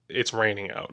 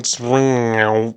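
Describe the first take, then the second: First: It is said in an ordinary speaking voice. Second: It is said in a put-on character voice.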